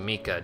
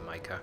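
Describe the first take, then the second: First: The name is said with Japanese vowels. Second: The name is said with English vowels. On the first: "just based on most Japanese pronunciations" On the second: "I'll probably say Micah. Just more used to that"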